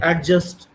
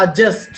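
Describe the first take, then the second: First: एडजस्ट with a clear d sound, ad-just; एडजस्ट said the wrong way, d sounded; common wrong pronunciation. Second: एडजस्ट said without the d, like a-just; एडजस्ट with a silent d, a-just; correct pronunciation. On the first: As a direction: show the common Indian mistake on एडजस्ट, d pronounced. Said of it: "लेकिन हम कहते हैं". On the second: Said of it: "लेकिन हम कहते हैं एडजस्ट". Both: Shown as a demonstration.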